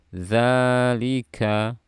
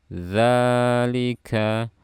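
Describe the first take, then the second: No difference in how they are said.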